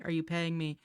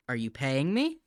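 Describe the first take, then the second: First: "you" pushed hard, louder and higher; much louder, hit "you"; stress on you. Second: "me" hit with a rising pitch and a loud push; much louder, punch "me" on the way up; stress on me. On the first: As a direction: lean on "you", accusing. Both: Real, not acted.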